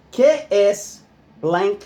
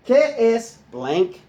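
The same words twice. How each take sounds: The two takes are said the same way.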